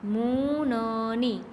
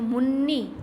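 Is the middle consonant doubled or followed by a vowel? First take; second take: vowel; doubled. First: The middle consonant is followed by a vowel. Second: The middle consonant is doubled without a vowel.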